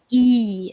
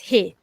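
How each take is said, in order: First: The word begins without an h sound. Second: The word begins with an h sound.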